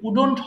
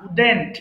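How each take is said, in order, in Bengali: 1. দ্বিতীয় সিলেবলটি 'dont' এর মতো শোনায়। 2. দ্বিতীয় সিলেবলটি 'dent' এর মতো শোনায়। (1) "এটা কিন্তু উডন্ট হবে না"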